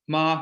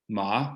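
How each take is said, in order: First: The pitch stays high and level. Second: The pitch rises from middle to high. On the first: The word means mother. "ma means mother" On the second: The word means numb. "ma means numb"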